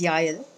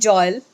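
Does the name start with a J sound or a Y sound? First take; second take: Y sound; J sound. First: The name begins with a y sound. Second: The name begins with a j sound. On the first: This is the original Hebrew pronunciation. "the right pronunciation is Yael" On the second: This is how people in India say it. "in India they call me Joel"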